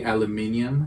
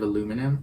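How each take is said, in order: First: "aluminium" with stress on MIN; British pronunciation. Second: "aluminum" with stress on LOO; American pronunciation. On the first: Co-host quoting British usage, "aluminium" ending in ee-um. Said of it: "they say aluminium". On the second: Co-host defending the American word, "aluminum" ending in plain num. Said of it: "instead of aluminum". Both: Shown as a demonstration.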